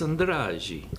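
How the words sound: It is said with a Brazilian Portuguese accent. "if you go down to Brazil"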